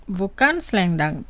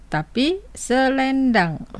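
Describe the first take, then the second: First: Selendang clipped to two syllables, "sleng-dang"; wrong pronunciation. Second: Selendang slow and careful, all three syllables "se-len-dang"; correct pronunciation. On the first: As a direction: squeeze selendang into sleng-dang, dropping the first e. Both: Shown as a demonstration. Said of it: "no es selendang, sino selendang".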